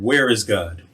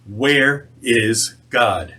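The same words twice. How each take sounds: First: Understated stern questioning, voice not raised. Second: Very slow, weighty stern question; sterner. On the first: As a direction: put the question with mild sternness. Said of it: "very sternly said". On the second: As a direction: space out each word sternly. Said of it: "repeated his question even sterner". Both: A narrator's reading.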